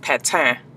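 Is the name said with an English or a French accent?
French. The name is said with a French accent.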